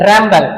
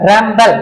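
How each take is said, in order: Both takes have the same delivery.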